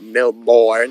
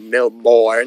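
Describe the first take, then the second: First: It is said the way foreign visitors say it. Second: The same.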